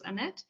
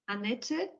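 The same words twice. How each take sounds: First: The name is said with an English pronunciation. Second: The name is said with a German pronunciation. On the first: "In English, it's Annette" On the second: "So this is the German pronunciation"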